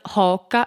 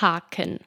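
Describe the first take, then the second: First: The middle consonant is a g sound. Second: The middle consonant is a k sound. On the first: This is the Walser German dialect form. "oder «Haken» für" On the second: This is the standard German form. "für «Haken»"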